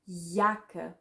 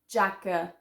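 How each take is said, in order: First: The word begins with a Y sound. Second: The word begins with an English J sound. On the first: The speaker calls it right. "but Jacke" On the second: The speaker calls it wrong. "So not Jacke"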